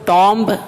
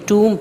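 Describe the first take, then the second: First: The final b sound is pronounced. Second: The final b sound is silent. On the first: The speaker calls it wrong. "इसको टॉम्ब नहीं पढ़ेंगे" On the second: The speaker calls it right. "बल्कि टूम पढ़ेंगे"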